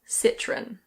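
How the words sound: It is said with a British English pronunciation. "in British English, people normally say Citroën"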